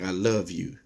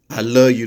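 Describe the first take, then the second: First: The final word is said in full. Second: The final word is reduced and casual. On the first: A sincere, vulnerable declaration. The speaker calls it right. "they can't say, I love you" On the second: An easy, offhand way to avoid real vulnerability. The speaker calls it wrong. "it's not bad English that a person has when they say, I love you"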